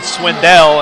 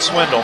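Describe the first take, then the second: First: The last syllable is a full, clear 'dell'. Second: The last syllable is a reduced 'dle' sound. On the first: The speaker calls it right. "I need to make sure I pronounce it Swindell" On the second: The speaker calls it wrong. "and not Swindle"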